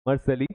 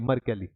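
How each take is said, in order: First: The middle consonant is an s sound. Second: The middle consonant is a k sound. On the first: The speaker calls it wrong. "सॉरी" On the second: The speaker calls it right. "इसको कैली pronounce करेंगे"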